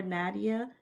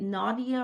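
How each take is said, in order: First: Nadia with a short "a", NAD-ee-uh; first a of Nadia as in "cat"; NAD-ee-uh pronunciation. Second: Nadia with a broad "ah", NAH-dee-uh; first a of Nadia as in "father"; NAH-dee-uh pronunciation. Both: Shown as a demonstration. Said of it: "am I pronouncing your name?".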